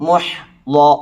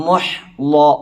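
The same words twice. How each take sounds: Both takes have the same delivery.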